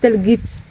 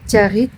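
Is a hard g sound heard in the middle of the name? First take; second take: yes; no. First: The middle consonant is a hard g sound. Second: The middle consonant is soft, with no hard g. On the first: This is how it reads from the spelling. "quand je le lis, moi je lis Telgit" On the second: This is how local people say it. "ça se dit Tiarit apparemment"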